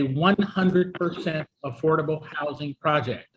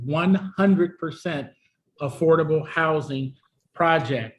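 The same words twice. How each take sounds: First: The phrase is said at a normal pace. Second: The phrase is said slowly and deliberately.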